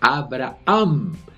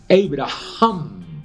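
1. El nombre se dice con pronunciación española. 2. El nombre se dice con una pronunciación parecida al hebreo. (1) "así lo decimos en nuestro idioma español" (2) "un acercamiento leve a la pronunciación en hebreo"

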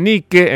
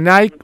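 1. El nombre se pronuncia a la española. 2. El nombre se pronuncia a la inglesa. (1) "los españoles dicen Nike" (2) "en vez de Nike"

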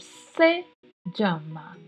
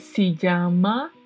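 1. A palavra se é dita à maneira espanhola. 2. A palavra se é dita à maneira portuguesa. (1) "é se llama" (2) "O se, para começar, não é se llama"

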